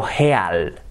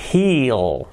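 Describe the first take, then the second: First: "heal" read as Spanish, "he-al", with a rough h; spelling pronunciation. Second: Said in the usual way. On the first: Shown as a demonstration. Teacher showing learners the spelling, "heal" sounded "he-al". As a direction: split "heal" into e and a, as written. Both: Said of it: "Escrito heal".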